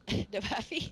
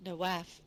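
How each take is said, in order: First: Nawafi said slowly with an added ee ending; Nawafi, stretched out and laughing; drawn-out mispronunciation. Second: Nawaf said plainly as noh-waf; pronouncing a name. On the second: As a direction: Nawaf with a long first vowel. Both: Shown as a demonstration. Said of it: "the correct pronunciation".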